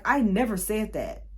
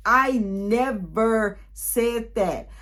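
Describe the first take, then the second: First: Said in the usual way. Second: I never said that, each word drawn out very slowly; deliberate, very slow insistence; slow emphatic denial. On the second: Retold or imitated. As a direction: spell it out slowly, word by word, to make it land.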